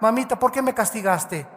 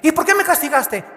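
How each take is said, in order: First: It is asked in a gentle, respectful tone. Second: It is asked in a defiant, rude tone.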